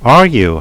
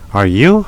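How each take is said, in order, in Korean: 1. 끝에서 음이 내려가요. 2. 끝에서 음이 올라가요. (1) "억양이 내려가면 상대방한테 동의를 구하는 거고" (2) "상대방한테 물어보는 거예요"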